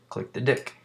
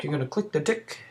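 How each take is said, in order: First: "dick" in place of "tick"; misheard British "tick". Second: Higher-pitched mock British voice; bad British accent. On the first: Retold or imitated. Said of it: "his British accent sounded like he was gonna say". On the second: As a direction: imitate a British tutorial guy, badly. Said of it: "that was the shittiest accent I've ever done".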